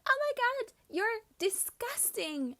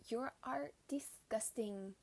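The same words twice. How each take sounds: First: High, loud shriek of disgust; shrieking mock outrage; imitated scream. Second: Slow, restrained mock disgust; measured, understated imitation of disgust; retold disgust. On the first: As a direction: scream it like an appalled schoolgirl, drawing out the insult. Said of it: "starting to scream". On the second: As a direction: repeat the insult slowly, word by word. Same insult repeated, toned down.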